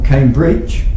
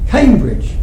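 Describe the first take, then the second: First: The stress is on the second syllable. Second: The stress is on the first syllable. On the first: The speaker calls it wrong. "We don't say Oxford or Cambridge. That would sound strange" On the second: The speaker calls it right. "the qualifier is usually stressed and the generic usually unstressed"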